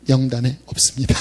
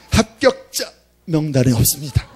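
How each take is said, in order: First: Said in the usual way. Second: Lightly mimicked recorded ARS announcement, rising on 합격자; a hint of a robotic hotline voice; automated phone voice. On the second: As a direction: read it out like a flat machine message saying 합격자 명단에 없습니다. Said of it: "이렇게".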